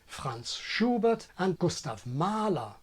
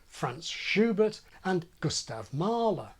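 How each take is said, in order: First: It is said in a German accent. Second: It is said in a British accent.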